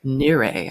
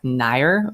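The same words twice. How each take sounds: First: "Nire" said in two syllables, nee-RAY; the new brand name "Nire" with the accent, said proudly. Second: "Nair" said as one syllable, like the word hair with an n; flat single-syllable "Nair", unimpressed; the plain backwards "Nair" that doesn't work; name read backwards. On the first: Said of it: "if I put the accent over the E". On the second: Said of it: "I'm like". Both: Shown as a demonstration.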